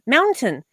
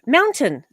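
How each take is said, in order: First: The T in the middle is clearly pronounced. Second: The T in the middle is clearly pronounced.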